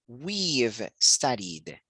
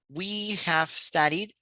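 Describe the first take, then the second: First: Have is reduced and joined onto we. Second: Have is said as a full separate word. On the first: The speaker calls it right. "sino we've studied" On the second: The speaker calls it wrong. "ya no diríamos we have studied"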